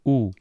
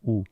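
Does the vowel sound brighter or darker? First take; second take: brighter; darker. First: The vowel is made with a shorter, brighter tract. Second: The vowel is made with a lengthened, darker tract. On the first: "instead of" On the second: "his vocal tract is lengthened a bit"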